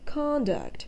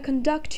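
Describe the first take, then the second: First: The stress is on the first syllable. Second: The stress is on the second syllable. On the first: "with the stress on the first syllable" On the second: "the above mentioned word has a second syllable stress"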